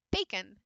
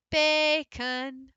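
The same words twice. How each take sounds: First: Said in the usual way. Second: Bacon with bay held out high; stressed Bacon. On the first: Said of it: "unaccented schwa is right there". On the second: Shown as a demonstration. Teacher contrasting stressed and plain Bacon. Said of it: "So there's our lazy uh".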